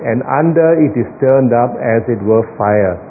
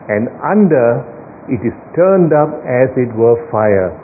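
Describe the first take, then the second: First: It runs on with no pause after 'under'. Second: There is a brief pause after 'under'. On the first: "I read it to you without the comma" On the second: "Now I read it again with the comma inserted"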